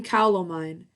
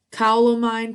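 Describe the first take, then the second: First: Said in the usual way. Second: Loud high call to the cow. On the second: Acted. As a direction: call out across the field. Witch calls out to cow.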